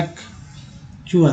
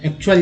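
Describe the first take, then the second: First: एक्चुअल breathed slowly with no voice, chu-al clear; slow voiceless एक्चुअल for students to copy; whispered slow demo. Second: Said in the usual way. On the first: Shown as a demonstration. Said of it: "देखिए". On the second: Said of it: "जैसे मान लीजिए एक्चुअल लिखे हैं".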